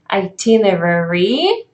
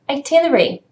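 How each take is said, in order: First: Every syllable of the word is pronounced. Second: The word is shortened, with a syllable dropped. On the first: "the full version of the word would be itinerary" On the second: "You would hear itinerary"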